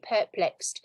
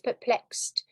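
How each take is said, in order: First: The stress is on the first syllable. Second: The stress is on the second syllable. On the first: The speaker calls it wrong. "Students often say perplexed" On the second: The speaker calls it right. "So the stress is on the second"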